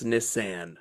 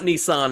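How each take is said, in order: First: Nissan as "nih-SAN"; flat a as in "can" in Nissan; new pronunciation. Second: Nissan as "NEE-sahn"; broad ah in the end of Nissan; old pronunciation. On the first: Mocking the film's rebrand, Nissan as "nih-SAN". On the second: Mocking the film's rebrand, Nissan as "nee-SAHN". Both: Retold or imitated. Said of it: "It's not Nissan anymore".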